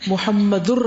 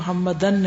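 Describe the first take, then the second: First: The word ends with the syllable -ur. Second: The word ends with the syllable -an. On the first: The speaker calls it right. "प्रॉपर प्रोनाउंसिएशन" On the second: The speaker calls it wrong. "नहीं"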